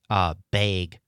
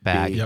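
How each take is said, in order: First: The vowel is said in a Wisconsin accent. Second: The vowel is said in a standard accent. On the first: "one of the most identifiable Wisconsin accent markers is bag" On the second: "instead of bag"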